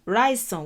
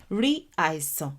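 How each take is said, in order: First: "ráìsàn" run together as one word; combined words. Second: "Rí àìsàn" as two separate words; uncombined words. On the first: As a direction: drop the first vowel, gliding straight into "ráìsàn". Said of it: "when you combine". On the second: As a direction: keep the vowel of "Rí" before "àìsàn". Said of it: "ráìsàn when you combine". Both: Shown as a demonstration.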